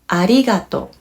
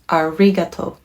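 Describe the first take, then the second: First: It is said with a Japanese r sound. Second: It is said with an English r sound.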